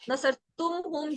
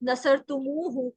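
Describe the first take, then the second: First: The ending joins directly, with no linking vowel. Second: An extra u vowel links the two parts. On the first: "उन्हें बोलने में इतना अच्छा नहीं लगा है" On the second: "उसको बदल के नसर तुमू हूँ कर दिया है"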